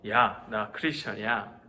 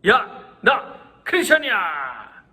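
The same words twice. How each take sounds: First: It is said in a flat monotone. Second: It is said in a loud voice.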